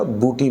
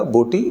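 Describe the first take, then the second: First: بوٹی said with u, as buti; wrong u sound. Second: بوٹی with a long o, boti; correct o sound. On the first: Teacher warns students of wrong بوٹی, u sound. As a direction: show بوٹی mispronounced with pesh, buti. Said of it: "بوٹی بن جائے گا". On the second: Teacher gives students the correct بوٹی, clear o. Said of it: "بوٹی نہیں بنے گا". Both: Shown as a demonstration.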